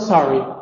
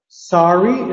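First: The pitch falls at the end. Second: The pitch rises at the end. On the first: The speaker is apologizing. "You stepped on someone" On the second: The speaker did not understand something. "it rises"

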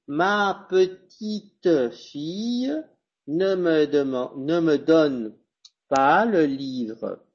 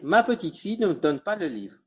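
First: Spoken slowly, with each e sounded. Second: Spoken quickly, with the e sounds dropped. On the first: "cuando va lento, le débit est lent" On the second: "si je vais vite, je vais pas prononcer"

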